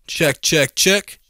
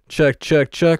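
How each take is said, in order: First: The high frequencies are boosted, sounding harsh. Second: The high frequencies are cut, sounding dull. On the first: "I can boost the high end" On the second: "I can reduce it so it sounds really lo-fi"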